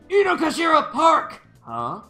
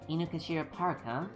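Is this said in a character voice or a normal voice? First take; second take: character; normal. First: It is said loudly in a put-on character voice. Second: It is said in a plain, ordinary speaking voice. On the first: The speaker calls it right. "yelling like that" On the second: The speaker calls it wrong. "I wasn't doing the voice correctly"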